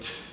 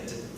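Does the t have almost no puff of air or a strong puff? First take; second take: strong puff; almost none. First: The t is released with a strong puff of air. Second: The t is released with almost no air. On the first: "all that air is wasted" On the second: "don't waste any air"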